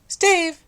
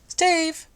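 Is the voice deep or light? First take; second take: light; light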